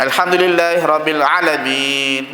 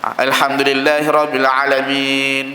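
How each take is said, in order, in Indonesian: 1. Vokal setelah ain dibaca pendek. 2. Vokal setelah ain dibaca pendek.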